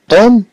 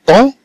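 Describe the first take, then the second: First: طوم with the lips shut on final m; m pronounced as m. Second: طون with the final m read like n, lips left open. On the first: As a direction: say طوم closing on a sounded m. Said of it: "وممكن أنها تقرأ طوم". (نطق طوم بميم ظاهرة) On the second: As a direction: say طون as French "ton", nasal vowel. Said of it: "كما لو عندنا النون". (نطق طون كأن آخرها نون) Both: Shown as a demonstration.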